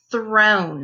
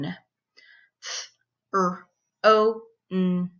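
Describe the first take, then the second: First: Said in the usual way. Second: THRONE split into four sounds; th... r... oh... n, separated; sounded out phonemes. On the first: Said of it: "breaking down those words". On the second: Shown as a demonstration. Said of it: "breaking down those words into their sounds".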